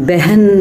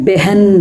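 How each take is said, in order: Both takes have the same delivery.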